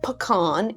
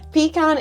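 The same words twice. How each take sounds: First: It is said with an American pronunciation. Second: It is said with a British pronunciation. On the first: "Pecan is the American pronunciation" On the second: "pecan is the British pronunciation"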